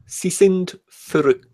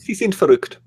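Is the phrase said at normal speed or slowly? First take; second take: slowly; normal. First: The phrase is said slowly. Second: The phrase is said at a normal speed.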